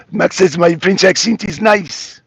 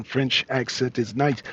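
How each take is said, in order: First: Louder, put-on French accent; mock French accent. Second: Said in the usual way. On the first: Host quoting the French guest on his accent, mock French accent.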